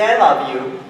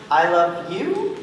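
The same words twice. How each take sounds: First: Said in the usual way. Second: "I love you?" slow, rising on "you"; as a question. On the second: Shown as a demonstration. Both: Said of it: "but we phrase it as a question".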